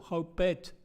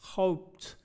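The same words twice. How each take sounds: First: The word is said as two syllables. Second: The word is said as one syllable. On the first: The speaker calls it wrong. "Agregando otro sílabo" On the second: The speaker calls it right. "en cambio de decir hoped"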